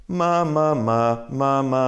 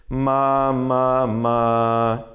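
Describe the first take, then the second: Both takes have the same delivery.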